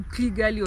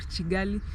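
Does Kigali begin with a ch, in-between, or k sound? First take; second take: in-between; ch. First: It begins with a sound between k and ch. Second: It begins with a ch sound. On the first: The speaker calls it right. "a pronunciation between K and C H" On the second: The speaker calls it wrong. "or Chigali"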